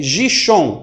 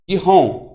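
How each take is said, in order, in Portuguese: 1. A consoante do meio é um som de sh. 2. A consoante do meio é um som de h. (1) "mas você não lê Gishon" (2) "você lê Gihon"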